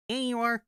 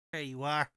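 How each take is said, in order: First: High, loud cooing greeting; high pet voice. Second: Said in the usual way. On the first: Real, not acted. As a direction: coo at the pet brightly. Greeting a pet, higher and louder.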